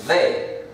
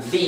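First: "the" with a short open vowel, not ee; "the" as "thuh". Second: "the" with a long ee; "the" as "thee". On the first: Teacher contrasting the two articles, "the" as "thuh". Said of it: "y esta sería the". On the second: Teacher contrasting the two articles, "the" as "thee". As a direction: say "the" to rhyme with see. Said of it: "Esta sería the". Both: Shown as a demonstration.

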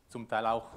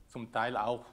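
The two takes are said the same way.

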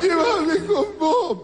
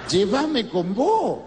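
First: Much higher, very slow wail breaking into a laugh; shrieking mock lament, higher and drawn out; over-the-top wailing widow. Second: Slow, stretched-out plea; hammed-up graveside lament; mock wailing widow. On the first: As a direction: overplay the grieving old woman begging to go along. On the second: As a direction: drag out a tearful plea at the coffin. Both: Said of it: "Lloraba la vieja".

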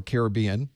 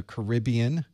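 First: "Caribbean" as "care-uh-BEE-un"; "Caribbean" stressed on its third syllable. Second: "Caribbean" as "kuh-RIB-ee-un"; "Caribbean" stressed on its second syllable. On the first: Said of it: "depending on". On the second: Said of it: "or Caribbean, depending on". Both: Shown as a demonstration.

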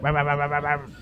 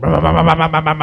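First: Low put-on motorbike revving, held back; mock scrambler engine, far off. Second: Louder revving engine impression, right outside; loud mock scrambler engine. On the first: Scallies riding scramblers down the street, imitated engine noise. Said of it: "just like". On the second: Heard in the dream outside his bedroom, loud engine imitation. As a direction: rev it up loud like bikes at the window. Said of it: "I just heard".

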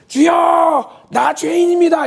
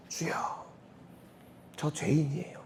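First: Shouted much higher and louder, drawn out; boastful shout. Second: Fading, much softer, nearly spent; a sinner's weak, broken plea; dying voice. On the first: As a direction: proclaim your sin like a boast. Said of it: "이렇게 자랑하는 분". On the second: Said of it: "죽어가는 목소리로". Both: Shown as a demonstration.

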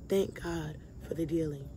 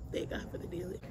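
First: Low, soft thanks to God; a hushed thank-you, lower than the sermon voice; quiet thanks. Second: Breathy whisper, much softer; hushed whispered gratitude; whispered thanks. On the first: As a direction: say it softly, settling. Quiet thanks before whispered repeat. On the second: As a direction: whisper it like a private prayer. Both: Real, not acted.

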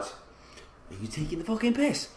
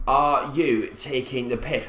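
First: Soft start climbing to a high squeal; incredulous squeak. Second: Said in the usual way. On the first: Real, not acted. Gamer finding injured players, incredulous rising squeak. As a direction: voice rising higher and higher in disbelief.

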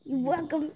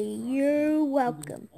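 First: Said in the usual way. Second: Drawn-out, pointed you're welcome; slow deliberate you're welcome. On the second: Shown as a demonstration. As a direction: say it slowly, making a point. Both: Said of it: "I can say".

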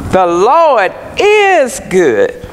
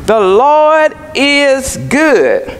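First: Said in the usual way. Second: "Lord" leaned on, whole line slow; slow with the weight on "Lord"; stress on Lord. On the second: Shown as a demonstration. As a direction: weigh down on "Lord" and draw the phrase out. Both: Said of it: "Note the emphasis".

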